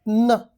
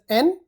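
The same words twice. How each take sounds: First: It is a bare nasal sound, no vowel. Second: It is said as the letter name, with a vowel. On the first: "as a sound it is pronounced as N" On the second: "normally pronounced as N"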